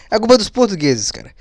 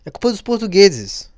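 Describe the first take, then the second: First: Laughing through the words. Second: Said in the usual way. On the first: Real, not acted. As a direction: chuckle as you repeat it. Repeats joke while laughing.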